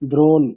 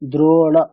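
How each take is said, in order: First: The word ends on the consonant with no vowel. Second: The word ends with a final vowel sound. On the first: The speaker calls it wrong. "মূর্ধন্যের নিচে একটা হসন্ত থাকবে, তবে আমরা pronunciation করতে পারবো যে দ্রোণ" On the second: The speaker calls it right. "অকার আছে তাই না, ... তাহলে দ্রোণা এরকম হবে"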